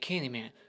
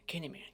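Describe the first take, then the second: First: The word is said slowly and drawn out. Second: The word is said quickly and plainly. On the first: Building tension dramatically. The speaker calls it wrong. "They just draw it out. They make it so dramatic" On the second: Just getting it over with. The speaker calls it right. "I wish they would say it like that"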